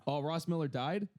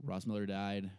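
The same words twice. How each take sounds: First: "Oh, Ross Miller died?" with a rising tune; surprised question. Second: "Ross Miller died." with a level, falling tune; flat statement. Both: Real, not acted. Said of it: "question then statement".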